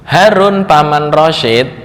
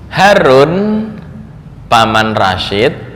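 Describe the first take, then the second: First: A pause comes right after the word Rashid. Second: A pause comes right after the word Harun. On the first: Harun is Rashid's uncle and is the one going. "Harun itu paman dari Rashid" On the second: Harun is being called; Rashid's uncle is going to the market. "bisa jadi dia manggil Harun anaknya"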